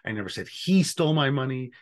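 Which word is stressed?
he. The stress is on "he".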